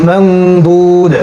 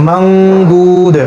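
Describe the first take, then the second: The two takes are said the same way.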